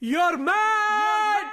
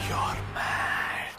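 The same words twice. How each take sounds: First: It is said more loudly and forcefully. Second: It is said at an ordinary volume.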